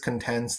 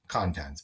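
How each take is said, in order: First: The stress is on the second syllable. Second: The stress is on the first syllable.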